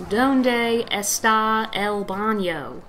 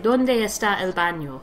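First: Put-on Donde está el baño in a thick American accent, está el baño very slowly; heavy American accent. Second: Donde está el baño with rounder Spanish vowels, not Americanized; a light try at real Spanish sounds for Donde está el baño; lightly Spanish accent. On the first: Imitating a Spanish classmate, slow lazy American accent. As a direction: say Donde está el baño like a country boy not even trying. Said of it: "the most American accent I think you could possibly say".

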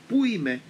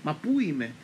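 First: Higher, louder panicked cry of πού; confused grandmother shouting, lost; frantic shout. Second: Lost and panicking, a bit louder; confused grandmother calling out in panic; frantic cry. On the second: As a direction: cry out where am I, bewildered. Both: Retold or imitated. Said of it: "άρχισε να φωνάζει σε έξαλλη κατάσταση".

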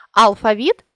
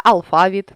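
First: Алфавіт with the final ВІТ stressed; stress on last syllable. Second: Алфавіт with ФА stressed; stress on middle syllable. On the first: Teacher shows a stress variant, алфавіт stressed on ВІТ. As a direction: lean on ВІТ at the end of алфавіт. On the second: Teacher shows a stress variant, алфавіт stressed on ФА. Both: Shown as a demonstration. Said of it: "наголосивши той чи інший склад".

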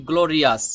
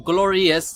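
First: গ্লোরিয়াস ending in an open "-as", "glo-ri-as"; common pronunciation. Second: গ্লোরিয়াস ending in "-es", "glo-ri-es"; standard pronunciation. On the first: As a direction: say গ্লোরিয়াস with a full a in the last syllable. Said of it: "আমরা অনেকে বলি". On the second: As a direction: say গ্লোরিয়াস with an e in the last syllable. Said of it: "standard". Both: Shown as a demonstration.

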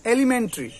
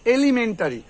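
First: এলিমেন্টারি as "e-li-men-tri"; correct pronunciation. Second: এলিমেন্টারি as "e-li-men-ta-ri"; full "ta" in এলিমেন্টারি; five syllables, "elimentari", for এলিমেন্টারি; common mispronunciation. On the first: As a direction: drop the "ta" from এলিমেন্টারি. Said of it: "উচ্চারণটা কি হবে". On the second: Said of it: "আমরা কি বলি". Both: Shown as a demonstration.

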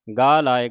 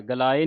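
First: ਗਾ ਲਾਏ with a long first vowel, said louder; correct pronunciation. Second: ਗਲਾਏ said wrongly with a short first vowel, "galaae"; wrong pronunciation. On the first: Teacher modelling ਗਾ ਲਾਏ with kanna for the sangat. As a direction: stretch the first syllable, "gaa laae". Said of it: "ਗੱਗੇ ਕੰਨਾਂ ਲਾ ਕੇ". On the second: Teacher warning the sangat against the wrong "galaae". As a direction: rush the first syllable of ਗਲਾਏ. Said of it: "ਗਲਾਏ ਨਹੀਂ ਕਹਿ ਦੇਣਾ". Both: Shown as a demonstration.

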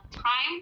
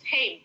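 First: "time" said "taim" with an I sound; the normal "time" with an ai; ordinary time. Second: "Time." said like "heng"; an H before the A, "Time."; tame with h sound. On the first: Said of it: "kalau pakai I yang bacanya time". ("time" dibaca "taim" seperti biasa) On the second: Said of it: "Kayak ada huruf H di sebelum A". ("Time." dengan bunyi H sebelum A) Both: Shown as a demonstration.

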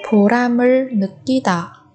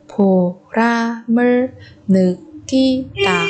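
First: Said in the usual way. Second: 보람을 느끼다 with gaps between syllables. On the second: Shown as a demonstration. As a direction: pause after each syllable of 보람을 느끼다. Teacher splits phrase by syllable. (đọc 보람을 느끼다 tách từng âm tiết)

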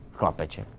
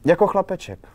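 First: Scornful little snort, then the word; understated sneer after a breathy scoff; mocking. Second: High, loud blurt; raised voice on an unguarded comparison. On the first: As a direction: throw the word back with derision. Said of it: "výsměšně řekl". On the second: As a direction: blurt the word out with a jump in pitch. Girl blurts out an unflattering comparison. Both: A narrator's reading.

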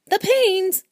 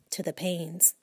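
First: High, loud incredulous echo of the name Paynes; shocked echo. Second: Said in the usual way. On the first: Acted. Husband aghast at his wife calling the Paynes, in a high loud incredulous echo. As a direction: throw the word Paynes back in disbelief.

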